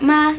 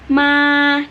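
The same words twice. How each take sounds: First: The syllable is said short, not drawn out. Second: The syllable is held level and drawn out. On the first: The speaker calls it wrong. "bukan ma gitu" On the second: The speaker calls it right. "tapi ma gitu"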